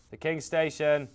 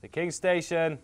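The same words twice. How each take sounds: The two takes are said the same way.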